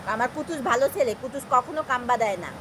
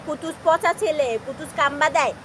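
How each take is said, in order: First: Said in the usual way. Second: Lightly voiced, slowed mock reproach; mock scolding of others. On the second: Mother imitates strangers mildly scolding her pet. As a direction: echo what people would say, half-teasing. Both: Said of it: "মানুষ বলবে".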